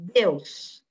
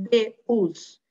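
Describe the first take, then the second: First: Deus run together as one syllable, like deus in one beat. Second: Deus split into two syllables, de-us. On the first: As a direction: glide Deus into a single syllable. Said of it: "Eu falo tudo junto". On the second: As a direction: say Deus as de-us, wrongly in two beats. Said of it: "Eu não falo assim". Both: Shown as a demonstration.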